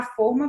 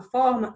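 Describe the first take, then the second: First: Forma with a closed first vowel, FÔR-ma. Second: Forma with an open first vowel, FÓR-ma. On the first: Teacher naming the cake tin, forma said with closed O. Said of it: "vai ser aquele recipiente". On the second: Teacher naming geometric shape, forma said with open O. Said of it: "estou falando de forma geométrica". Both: Shown as a demonstration.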